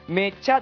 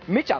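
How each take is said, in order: First: The pitch rises across the word. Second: The pitch falls across the word. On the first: "めちゃで上がるんですけども" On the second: "めちゃって落ちるんですよ"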